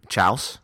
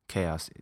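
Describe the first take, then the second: First: The word begins with a ch sound. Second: The word begins with a k sound.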